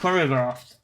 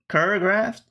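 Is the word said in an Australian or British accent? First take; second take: British; Australian. First: It is said in a British accent. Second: It is said in an Australian accent. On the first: "That's like a British way of saying" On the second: "How would an Australian say the word choreographed?"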